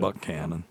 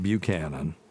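First: It is said with the local pronunciation. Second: It is said with the outsider's pronunciation. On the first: The speaker calls it right. "Yep. Buchanan" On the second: The speaker calls it wrong. "It's not Buchanan"

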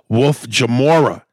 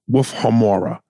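First: The surname starts with a J sound. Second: The surname starts with an H sound. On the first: The speaker calls it wrong. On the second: The speaker calls it right.

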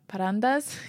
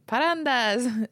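First: It is said hesitantly, like an unsure question. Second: It is said in a lively, festive way.

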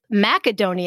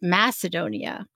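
First: It is said in a Greek-like pronunciation. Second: It is said in the usual English pronunciation. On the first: "Macedonia is closer to the Greek pronunciation" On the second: "we, who have a language that springs from the Romans, pronounce it Macedonia"

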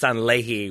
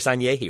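First: The middle consonant is a plain L sound. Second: The middle consonant is a Y sound. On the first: The speaker calls it wrong. "I've always thought it was just Sanlehi with the one L" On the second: The speaker calls it right. "here you come in with your Sanyehi. Well done"

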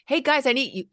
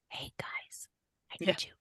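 First: It is said in a full, loud voice. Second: It is said in a quiet whisper. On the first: The speaker calls it wrong. "instead of like" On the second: The speaker calls it right. "bringing it down by whispering to them"

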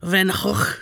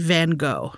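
First: The name is said with a Dutch pronunciation. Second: The name is said with an American pronunciation. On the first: "the right way to say his name is probably something like" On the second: "Americans tend to say"

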